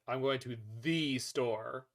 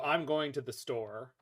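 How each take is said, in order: First: The stress falls on the word the. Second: The stress falls on the word store.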